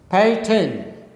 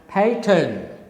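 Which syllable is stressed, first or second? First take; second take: first; first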